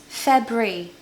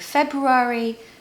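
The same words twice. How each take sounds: First: The word is said with only two syllables. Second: The word is said with more than two syllables. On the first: The speaker calls it right. "It's actually just two syllables" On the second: The speaker calls it wrong. "I hear people saying February"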